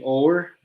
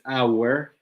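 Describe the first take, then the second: First: The word sounds like "or". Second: The word sounds like "our". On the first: The speaker calls it wrong. "we don't we say or" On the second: The speaker calls it right. "but it's our"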